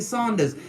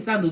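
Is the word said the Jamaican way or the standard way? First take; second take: Jamaican; standard. First: The word is said the Jamaican way. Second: The word is said in standard English. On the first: "That's what we call it in Jamaica" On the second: "you don't say Sandals"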